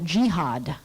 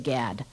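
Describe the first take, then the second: First: The acronym is said as two syllables, "jee-had". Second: The acronym is said as one syllable, "gad". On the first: It shows dislike of the district. "the ecology crowd says uh, jihad because they don't like it" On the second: It is the neutral, common way to say it. "I just say GAD. That's what most people say"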